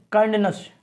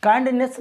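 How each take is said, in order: First: काइंडनेस ending in a reduced "nuhs"; correct ending demo. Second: काइंडनेस ending in a clear "ness"; wrong ending demo. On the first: Teacher giving the correct reading, carefully pronounced. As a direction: model काइंडनेस with a short schwa in last syllable. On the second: Teacher contrasting wrong with right, mispronounced. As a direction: stress a full e in the end of काइंडनेस. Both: Shown as a demonstration. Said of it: "काइंडनेस नहीं".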